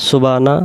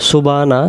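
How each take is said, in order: No difference in how they are said.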